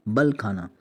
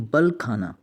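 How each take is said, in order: Both takes have the same delivery.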